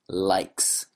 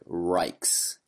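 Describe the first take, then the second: First: The word begins with a clear L sound. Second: The word begins with an R sound. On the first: The speaker calls it right. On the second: The speaker calls it wrong. "you said rikes"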